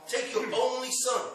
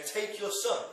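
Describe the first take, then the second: First: "only" punched higher and louder; stress on ONLY. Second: Said in the usual way. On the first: Shown as a demonstration. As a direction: lean hard on "only" in the middle. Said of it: "He emphasizes the word "only". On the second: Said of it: "God focuses on the use of the word "only".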